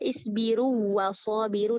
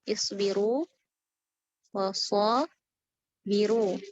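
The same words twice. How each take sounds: First: The vowel merges into the following consonant. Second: The vowel is held long before the consonant. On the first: The speaker calls it wrong. "diidghamkan, itu salah juga" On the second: The speaker calls it right. "Harus dikasih mad"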